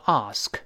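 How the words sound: It is said in a British accent. "英国人读成ask"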